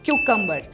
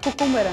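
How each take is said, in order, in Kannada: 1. ಈ ಪದ 'kyoo' ಶಬ್ದದಿಂದ ಶುರುವಾಗುತ್ತೆ. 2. ಈ ಪದ ಸರಳವಾದ 'koo' ಶಬ್ದದಿಂದ ಶುರುವಾಗುತ್ತೆ. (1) "ಇದರ ರಿಯಲ್ ಪ್ರೊನೌನ್ಸಿಯೇಷನ್" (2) "ತುಂಬ ಜನ ಕುಕುಂಬರ್ ಅಂತ ಕರೀತಾರೆ"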